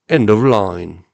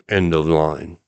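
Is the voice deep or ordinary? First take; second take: ordinary; deep. First: It is said in an ordinary voice. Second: It is said in a put-on deep voice.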